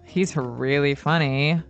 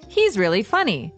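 First: The tone is sarcastic and mocking. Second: The tone is sincere and straightforward. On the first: He is not funny and is being mean. "But if I say, ugh. ... I'm saying he's not funny" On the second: He is a funny guy. "You're saying, yeah, he's a funny guy"

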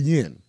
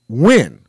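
First: The name begins with a Y sound. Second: The name begins with a W sound. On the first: The speaker calls it wrong. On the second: The speaker calls it right. "it's pronounced win"

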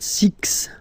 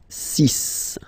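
First: The word ends with a ks sound. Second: The word ends with a plain s sound. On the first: The speaker calls it wrong. "it's not six" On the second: The speaker calls it right. "you'll have to pronounce it like S"

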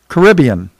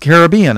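First: It is said the way South Floridians say it. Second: It is said the way Europeans say it. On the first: "If you're in South Florida, it's the Caribbean" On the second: "If you're in Europe, it's the Caribbean"

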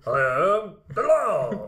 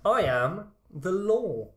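First: It is said in an imitated actor's voice. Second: It is said in the speaker's normal voice.

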